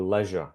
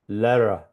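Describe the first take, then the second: First: The middle consonant is a 'zh' sound. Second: The middle consonant is an 'r' sound. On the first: The speaker calls it right. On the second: The speaker calls it wrong.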